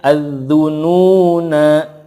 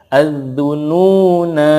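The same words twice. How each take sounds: First: The final vowel is short. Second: The final vowel is long. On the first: The word is joined to the next word. "adzununa pendek" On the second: The reading stops on this word. "tetapi ketika waqafnya"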